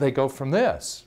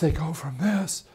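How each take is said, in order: First: The voice is full, clear and strong. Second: The voice is weak, breathy and raspy. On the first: This is the voice after surgery. The speaker calls it right. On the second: This is the voice before surgery. The speaker calls it wrong.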